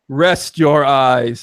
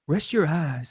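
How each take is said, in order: First: The voice sounds intense and forceful. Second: The voice sounds soft and gentle. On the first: The speaker calls it wrong. "So intense" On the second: The speaker calls it right. "That's better"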